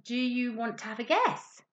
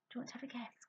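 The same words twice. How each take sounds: First: Said in the usual way. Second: Much softer whispered repeat; whispered coaxing question to the puppet. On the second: Shown as a demonstration.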